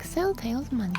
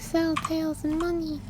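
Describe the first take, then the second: First: The pitch moves widely up and down. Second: The pitch stays flat with little range. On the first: The speaker calls it wrong. "Instead of" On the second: The speaker calls it right. "it's more monotone, I would like"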